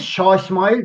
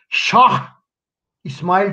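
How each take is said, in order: First: The final h of Şah is left out. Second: The final h of Şah is clearly pronounced. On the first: The speaker calls it right. "Biz Şah İsmail deriz" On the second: The speaker calls it wrong. "Yazılsa bile mesela biz Şah İsmail diyemeyiz"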